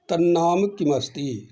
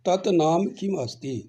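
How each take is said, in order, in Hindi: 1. पहला शब्द n ध्वनि से समाप्त होता है। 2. पहला शब्द t ध्वनि से समाप्त होता है।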